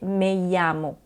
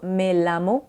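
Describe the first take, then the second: First: The double L sounds like a Y. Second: The double L sounds like a plain L. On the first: The speaker calls it right. "mais bien me llamo ... comme un Y" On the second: The speaker calls it wrong. "ce n'est pas me llamo"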